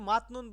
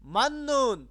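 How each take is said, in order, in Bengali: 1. মাঝের ব্যঞ্জন দুটি হলো t, তারপর n। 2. মাঝের ব্যঞ্জনটি একটি দ্বিত্ব n ধ্বনি। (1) "এখানে কিন্তু মাতনুন বললে হবে না" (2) "ত ধ্বনিটি নয়ের মতো করে উচ্চারিত হয়"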